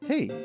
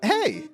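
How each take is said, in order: First: It is said in a calm, relaxed way. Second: It is said with high energy.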